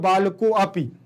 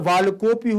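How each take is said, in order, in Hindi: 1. 'balako' के बाद एक अलग 'a' ध्वनि सुनाई देती है। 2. 'a' ध्वनि मौन है और शब्द सहजता से बहता है। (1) "जैसे आपने कह दिया बालको अपि, तो मतलब आपकी एक गतिभंग दोष हो गया है" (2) "बालकोपी होगा"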